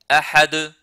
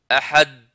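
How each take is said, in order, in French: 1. Le d final est relâché avec un rebond. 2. Le d final est à peine entendu. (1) "il faut le prononcer correctement de cette manière-là" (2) "on n'entend pas d'elle"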